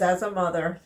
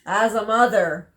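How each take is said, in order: First: Said in the usual way. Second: "as a mother" said louder, with firm emphasis; emphatic repeat. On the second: Real, not acted. Mother making her point about boyfriends, "as a mother" emphatic. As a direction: press home "as a mother".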